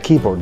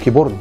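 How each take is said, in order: First: The first syllable is stressed and lengthened. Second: The second syllable is stressed and lengthened. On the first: The speaker calls it right. "نطول الاولاني تبقى كيبورد" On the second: The speaker calls it wrong. "مش كيبورد"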